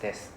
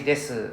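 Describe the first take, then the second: First: The final u sound is silent. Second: The final u sound is clearly voiced. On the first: "just this. Silent U" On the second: "If you choose to say です, people might think you very cute"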